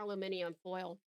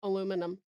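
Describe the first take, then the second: First: "aluminum" said the British way, al-yoo-MIN-ee-um; British "aluminum" with an extra ee before the last syllable; British pronunciation. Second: "aluminum" said the American way, uh-LOO-min-um; American "aluminum", no ee before the last syllable; American pronunciation. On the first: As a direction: stretch "aluminum" to five syllables, stress on MIN. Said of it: "Or, for my Americans". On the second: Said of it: "for my Americans". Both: Shown as a demonstration.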